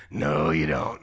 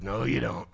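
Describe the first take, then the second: First: Very deep, booming divine voice; Holy Spirit. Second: Lightly voiced divine rebuke, lower; Holy Spirit. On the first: Retold or imitated. Spirit insists the pastor not sit down, very deep voice. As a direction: forbid it in a far lower, weightier voice. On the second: Spirit stops the pastor sitting down, lower firm voice. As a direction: put on a low voice of conviction. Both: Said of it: "the Holy Spirit goes".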